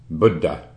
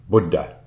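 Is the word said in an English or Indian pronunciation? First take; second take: Indian; Indian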